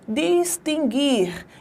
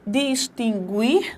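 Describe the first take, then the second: First: The u after the g is silent. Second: The u after the g is pronounced. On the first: The speaker calls it right. "Esse U não tem som" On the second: The speaker calls it wrong. "como nós pronunciamos. Distinguir, não"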